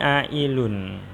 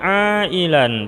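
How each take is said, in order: First: The ending has an u vowel before n. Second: The ending has an a vowel before n. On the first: The speaker calls it wrong. "tidak boleh" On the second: The speaker calls it right. "Ailan ini harus dibaca ailan"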